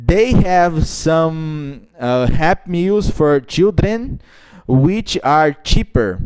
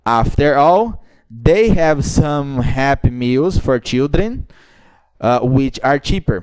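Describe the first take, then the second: First: Teacher demonstrates TH and R sounds; slow careful TH. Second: "they" with clear th; teacher repeats to show the difference; slow linked reading. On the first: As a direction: stretch it out, showing the th. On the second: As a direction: read it slowly with clear th. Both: Shown as a demonstration. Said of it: "Você notou alguma coisa de diferença".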